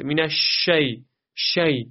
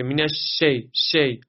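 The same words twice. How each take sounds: First: مینش شی with a full, spread ش; airy ش and open "shay" in شی. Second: مینش شی with a thin, unspread ش; sh without spreading. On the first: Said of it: "این درسته". (شینِ شی با تفشی) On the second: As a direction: narrow the hiss in شی. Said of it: "تفشی وجود نداشته باشه". (شینِ شی بدون تفشی) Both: Shown as a demonstration.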